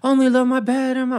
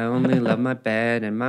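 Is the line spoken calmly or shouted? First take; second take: shouted; calmly. First: It is shouted in a loud, theatrical voice. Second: It is spoken in a calm, relaxed voice. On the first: The speaker calls it wrong. "if you shouted [name]'s lyrics" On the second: The speaker calls it right. "Shakespeare is supposed to be chill"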